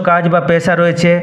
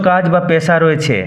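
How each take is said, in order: No difference in how they are said.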